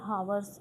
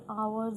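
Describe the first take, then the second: First: The word starts with an audible h sound. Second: The word starts with a vowel, no h sound. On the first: The speaker calls it wrong. "हावर्स इसको मत बोलना" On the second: The speaker calls it right. "ये आवर्स होता है भाई"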